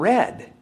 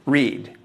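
First: The vowel is short, rhyming with bed. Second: The vowel is long, rhyming with need. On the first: It is the past tense. "or is it the past tense?" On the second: It is the present tense. "Is it the present tense"

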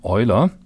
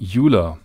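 First: The name is given a German pronunciation. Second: The name is given an American pronunciation. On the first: "Most people these days use the German pronunciation of his name" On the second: "in the US you may also hear the pronunciation"

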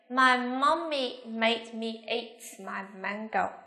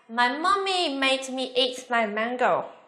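First: The sentence is said at a normal speed. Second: The sentence is said a little faster. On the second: "Nhanh hơn một chút nha"

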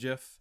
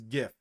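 First: It starts with a J sound, like the peanut butter. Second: It starts with a hard G sound. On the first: The speaker calls it wrong. "It is not GIF. It is not peanut butter" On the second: The speaker calls it right. "is it is GIF"

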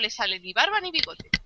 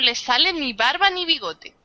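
First: It is spoken at a normal, quicker pace. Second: It is spoken at a slower, careful pace.

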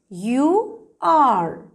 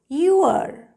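First: Two full words are said separately. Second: The words are joined into one short syllable.

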